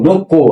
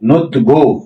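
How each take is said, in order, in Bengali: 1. প্রথম অক্ষর k দিয়ে শেষ হয়, তারপর k। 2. প্রথম অক্ষর t দিয়ে শেষ হয়, তারপর g। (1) "এখানে যেহেতু গিয়ক আছে তাহলে গ" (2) "নয়াকারে নো তার নোত আর গয়াকারে গো"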